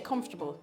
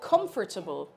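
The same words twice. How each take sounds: First: The middle syllables are run together and reduced. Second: Every syllable is pronounced carefully and fully. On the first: "I say comfortable. ... it's kind of all one" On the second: "I'm going to say it like very, very proper"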